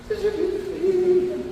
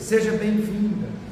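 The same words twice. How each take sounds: First: It is said in a soft bleating voice. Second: It is said in a normal voice.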